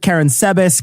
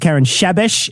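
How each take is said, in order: First: The name is said with plain s sounds. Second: The name is said with sh sounds. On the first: "I'm not going to do the shah" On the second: "another way I heard with the shah going on there"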